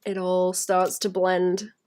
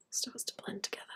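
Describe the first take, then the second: First: Said in the usual way. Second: Hushed echo of her own words; whisper. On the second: Acted. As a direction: breathe it out as a whisper. Whispered echo of blend line.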